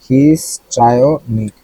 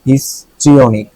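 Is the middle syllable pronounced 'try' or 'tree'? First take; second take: try; tree. First: The middle syllable sounds like 'try'. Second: The middle syllable sounds like 'tree'. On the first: The speaker calls it wrong. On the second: The speaker calls it right.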